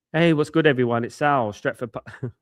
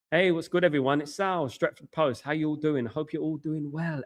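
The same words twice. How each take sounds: First: Forced low voice. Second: A self-conscious try at a low broadcaster voice; forced low voice. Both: Shown as a demonstration. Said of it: "trying forcefully speaking low".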